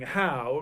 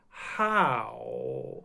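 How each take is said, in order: First: The word is said at a normal speed. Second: The word is said slowly and drawn out.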